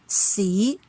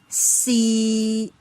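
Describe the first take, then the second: First: The pitch rises from middle to high. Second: The pitch stays level in the middle. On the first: "it rises from the mid-level to the highest" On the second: "it remains a flat level in the middle level"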